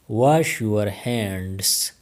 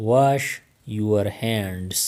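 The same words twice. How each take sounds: First: Each word drawn out slowly; very slow, careful. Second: Said in the usual way. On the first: Shown as a demonstration. Teacher modelling English for Pashto learners, very slow. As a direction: spell it out slowly for the class. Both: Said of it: "teacher repeats the phrase twice".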